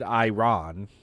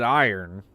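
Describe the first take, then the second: First: The ending is fully pronounced as 'ron'. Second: The ending is reduced, sounding like 'eye-urn'. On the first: "You're trying to get me to pronounce the ron at the end" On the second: "I pronounce it iron"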